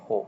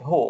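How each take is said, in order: First: "হো" with a short, open Bangla o; Bangla "ho" sound. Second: "হো" said like English who, long oo; English "who" sound. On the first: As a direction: say "হো" the right way, as in Bangla. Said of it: "বাংলাতে উচ্চারণ করতে গেলে". (বাংলা উচ্চারণে ছোট "হো") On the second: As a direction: say "হো" the wrong way, as the English word who. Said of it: "এভাবে বলো না যে". (ইংরেজি who-এর মতো "হো") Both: Shown as a demonstration.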